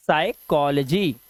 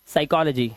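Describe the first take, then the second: First: साइकोलॉजी slowly in separate parts, silent p; slow model pronunciation. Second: Said in the usual way. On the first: Shown as a demonstration. Teacher repeating for the class, साइकोलॉजी slow and broken up. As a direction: break it up as साइ-कॉ-ल-जी, slowly. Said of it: "क्या पढ़ते हैं?". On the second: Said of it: "इसे पढ़ते हैं हम क्या".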